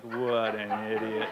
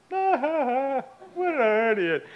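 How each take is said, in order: First: Slow, deadpan disgust; imitated disapproval. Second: Very slow, high mocking cackle-talk; imitated laughing. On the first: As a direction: drag it out, unimpressed. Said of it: "shaking her head like". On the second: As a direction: draw it out while guffawing at someone. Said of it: "and he's laughing".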